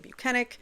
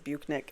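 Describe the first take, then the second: First: The name is said with three syllables. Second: The name is said with two syllables. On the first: This is how the speaker says the name. "I say Buchanan" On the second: This is how another person says the name. "He says Buchnick"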